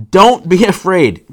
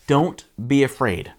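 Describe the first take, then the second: First: Loud, slow, commanding call; acted booming command. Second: Said in the usual way. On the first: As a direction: shout reassurance across the waves. Jesus calls to frightened disciples.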